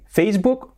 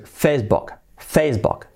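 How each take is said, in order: First: "Facebook" with a long "oo" in book; the not-to-say "Facebook", rhyming book with "fluke"; Spanish-style Facebook. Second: "Facebook" with a short open vowel in book, near "bok"; crisp model "Facebook", book closer to o than u; English-style Facebook. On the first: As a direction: say "Facebook" ending in a Spanish "buk". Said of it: "nada de decir". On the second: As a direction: say "Facebook" ending almost in "bok". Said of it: "sería así, ¿vale?". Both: Shown as a demonstration.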